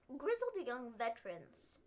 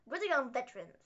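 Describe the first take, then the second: First: The phrase is said slowly and carefully. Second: The phrase is said quickly and run together.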